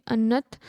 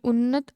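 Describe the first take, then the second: First: अन्नत said with a short plain a at the start; misreading it as अन्नत, an-nat; wrong word slip. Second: उन्नत said with u at the start and a long held n; correcting to उन्नत, un-nat; self-correction, a bit louder, on उन्नत; corrected word. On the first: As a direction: slips and says अन्नत instead of उन्नत. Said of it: "sorry, उन्नत". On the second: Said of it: "sorry". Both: Real, not acted.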